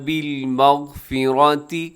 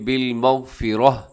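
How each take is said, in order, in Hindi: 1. आख़िरी लफ़्ज़ ti की आवाज़ पर ख़त्म होता है। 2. आख़िरी लफ़्ज़ h की आवाज़ पर ख़त्म होता है।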